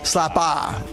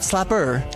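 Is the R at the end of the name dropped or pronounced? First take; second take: dropped; pronounced. First: The final R sound is dropped. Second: The final R sound is pronounced. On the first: The speaker calls it right. "gotta get rid of the R" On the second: The speaker calls it wrong. "not Slapper"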